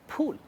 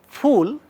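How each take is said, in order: First: It starts with both lips pressed together. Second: It starts with the upper teeth on the lower lip. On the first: The speaker calls it wrong. "many of us would end up saying fool" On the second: The speaker calls it right. "an English word like fool"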